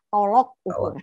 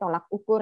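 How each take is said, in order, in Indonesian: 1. Kata pertama diucapkan dengan vokal 'o'. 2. Kata pertama diucapkan dengan vokal 'a'. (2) "jangan ngomongnya tolak ukur ya, K B B I-nya salah"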